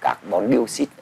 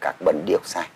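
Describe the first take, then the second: First: It is pronounced with Vietnamese-style sounds. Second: It is pronounced with English-style sounds. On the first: "Chúng ta đọc tiếng Việt như vậy" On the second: "còn tiếng Anh đọc là"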